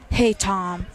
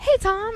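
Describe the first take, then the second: First: It is said in an angry tone. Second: It is said with enthusiasm.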